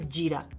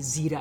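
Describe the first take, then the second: First: The word starts with a j sound. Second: The word starts with a z sound. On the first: The speaker is cultured and educated. The speaker calls it right. "The actual shuddh, posh way of saying it is Jira" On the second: The speaker's Hindi or Urdu is not very refined. The speaker calls it wrong. "that is when you will say Zira. It's a very pedestrian way of saying it"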